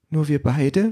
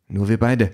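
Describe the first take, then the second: First: High, rising sad little question; sad child. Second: Mother's answer with falling close; mother's reassurance. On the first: Child asks mother about leaving without papa, sad. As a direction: ask it as a small child, saddened. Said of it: "fragt das Kind traurig". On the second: Mother answering her sad child, reassuring. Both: A narrator's reading.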